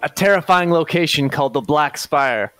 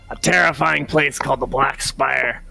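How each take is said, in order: First: It is said in the speaker's own voice. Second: It is said in Scrim's put-on voice.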